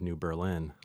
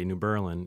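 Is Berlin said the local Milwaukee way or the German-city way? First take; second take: German city; local Milwaukee. First: Berlin is said like the German city. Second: Berlin is said the local Milwaukee way.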